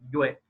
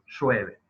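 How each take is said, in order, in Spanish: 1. Suena como una w. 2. Es un siseo sordo. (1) "la manifestación de esa Y va a ser como una W" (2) "el tercer caso es sordo"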